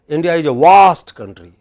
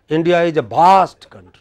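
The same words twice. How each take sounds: First: The v in vast sounds like w. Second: The v in vast sounds like bh. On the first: "But here in the west, south ... are they saying waste country?" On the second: "we in Bihar, Bengal, Orissa, Assam, Nepal ... we pronounce it as bha"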